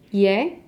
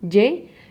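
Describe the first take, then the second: First: The consonant is pronounced softly, like a y. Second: The consonant is pronounced strongly, like a firm y. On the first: This is how it sounds in Spain. "in Spain, they pronounce it a little bit softer" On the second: This is how it sounds in Mexico. "we in Mexico, we do it a little bit stronger"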